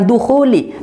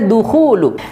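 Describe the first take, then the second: First: The word ends with an 'i' vowel. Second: The word ends with a 'u' vowel. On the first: The word follows a preposition. The speaker calls it wrong. "bukan dukhuli" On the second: The word is the subject of a passive verb. The speaker calls it right. "harusnya dukhulu. Di sini menjadi naibul fa'il yang dibaca rofa"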